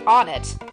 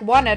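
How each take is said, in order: First: The name begins with a plain vowel, no 'w'. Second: The name begins with a 'w' sound, like 'one'. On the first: This is the official name. The speaker calls it wrong. "the official pronunciation of this town is supposed to be Onnet" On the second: The name echoes the number one. The speaker calls it right. "I like Wonnet a lot better"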